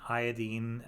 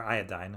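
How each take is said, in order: First: "iodine" rhyming its last syllable with "seen"; British-style iodine. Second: Said in the usual way. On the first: Real, not acted. Doctor slips into British usage, "iodine" said as "eye-o-deen". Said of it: "why I'm saying it like that. We're not in Britain". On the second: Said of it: "I don't know why I'm saying it like that".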